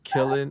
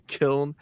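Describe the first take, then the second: First: The name is said in two syllables. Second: The name is said in one syllable.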